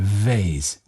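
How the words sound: It is said in an American accent.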